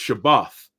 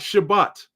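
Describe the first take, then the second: First: The word ends with a th sound. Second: The word ends with a t sound. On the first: The speaker calls it right. "how you say it in the Hebrew, is Shabbath" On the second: The speaker calls it wrong. "It's not Shabbat"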